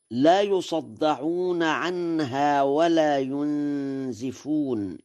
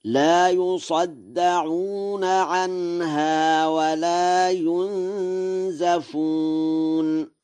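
First: Said in the usual way. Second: Very slow, higher chanted verse, "ينزفون" as yunzafun; sung, intone in long held notes, a after the z in "ينزفون"; sung, Warsh recitation. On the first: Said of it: "قوله تعالى". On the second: Shown as a demonstration. Lecturer demonstrates Warsh's reading to listeners, slow chanted recitation. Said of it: "فيقرأ هكذا".

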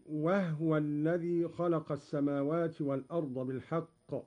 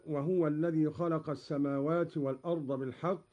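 First: "وهو" said wahwa, with no vowel on the haa; silent haa. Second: Said in the usual way. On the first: Shown as a demonstration. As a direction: recite "وهو" as wah-wa. (تسكين الهاء في "وهو") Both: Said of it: "بإسكان الهاء".

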